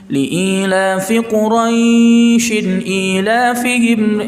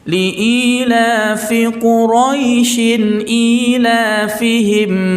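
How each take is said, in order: First: The vowel in Quraisy is drawn out long. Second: The vowel in Quraisy is kept short. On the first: The speaker calls it wrong. "Ya, itu salah" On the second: The speaker calls it right. "tidak ada panjang di situ. Bacaan biasa saja"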